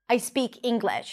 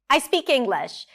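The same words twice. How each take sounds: First: It is said with a firm, convincing intonation. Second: It is said with a light, joking intonation. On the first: It tries to persuade the listener. "She's not trying to convince us" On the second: It is meant as a joke. "Something about the intonation makes it a bit more funny"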